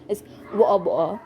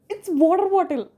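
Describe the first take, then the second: First: It is said in a put-on British accent. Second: It is said in her plain accent.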